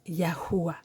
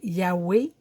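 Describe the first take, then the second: First: The name has three syllables, ending in 'wah'. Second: The name has two syllables, ending in 'weh'. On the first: The speaker calls it right. "qui se prononce Yahuwah" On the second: The speaker calls it wrong. "Certains vont dire Yahweh, mais ça fait un non-sens"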